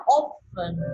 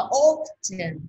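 First: British "often" with the T silent, OF-en; British pronunciation. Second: American "often" with the T sounded as "ch", OF-chin; American pronunciation. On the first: Teacher contrasting accents for learners, British "often" without T. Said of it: "còn tụi Anh nó đọc là often". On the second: Teacher contrasting accents for learners, American "often" with T. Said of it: "tụi Mỹ nó đọc là often". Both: Shown as a demonstration.

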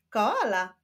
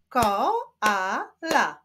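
First: Said in the usual way. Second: "Koala" split as ko, a, la with pauses; syllable by syllable. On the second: Shown as a demonstration. Teacher showing syllables to pupils, "Koala" split in three. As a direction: clap out "Koala" in three beats. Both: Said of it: "Wyklaszczmy sylaby".

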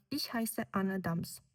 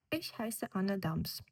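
First: Ich heiße Anne Dahms said slowly, the tune dropping on Dahms; falling statement tune. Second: Slow, with the tune falling at the end of Ich heiße Anne Dahms; falling statement tune. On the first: Teacher repeats the falling statement model for students. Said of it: "падає". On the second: Teacher models a falling statement tune for the class. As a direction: let Ich heiße Anne Dahms fall at the close, slowly. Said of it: "Мелодія несхідна". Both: Shown as a demonstration.

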